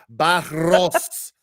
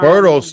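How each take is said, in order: First: The name is said with a rolled r. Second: The name is said with a plain r. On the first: The speaker calls it right. "Roll, roll the tongue" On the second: The speaker calls it wrong. "Don't say Burros because you're calling him a donkey"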